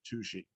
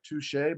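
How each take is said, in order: First: It sounds like the word tushy. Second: It sounds like the word touché. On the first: This is how the local people say it. "they pronounce it Tushy" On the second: This is how the spelling suggests it is said. "it's spelled like Touche"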